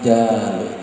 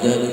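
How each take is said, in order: First: It is said as an earnest, heartfelt plea. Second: It is rattled off in a mechanical, rote way. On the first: The speaker is truly asking for something. The speaker calls it right. "Orang kalau betul-betul jaluk" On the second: The word is only being read aloud. The speaker calls it wrong. "Membaca jaluk"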